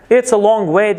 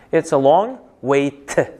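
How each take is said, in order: First: WAY with no audible T, higher and louder; silent T. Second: WAY slowly, then a separate "t"; T sounded out. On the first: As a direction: run "long way" on without sounding a final T. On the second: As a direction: release a distinct "t" after "way". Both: Shown as a demonstration. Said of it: "t ni talaffuz qilmayapti".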